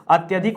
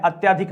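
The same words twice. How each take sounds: First: अत्यधिक said "at-ya-dhik"; short "ya" inside अत्यधिक; correct short middle vowel. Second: अत्याधिक said "at-yaa-dhik"; long "yaa" inside अत्याधिक; wrong long middle vowel. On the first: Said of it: "अत्यधिक होता है". (अत्यधिक में "य" छोटा बोलें) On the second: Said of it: "अत्याधिक नहीं होता है". (अत्याधिक में "या" लंबा बोलें) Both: Shown as a demonstration.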